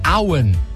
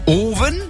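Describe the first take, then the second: First: The name begins with an 'ow' vowel. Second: The name begins with an 'oh' vowel. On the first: The speaker calls it right. "der heißt nämlich Auen" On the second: The speaker calls it wrong. "nicht Owen. Ist auch nicht mit dem englischen Fußballspieler Michael Owen"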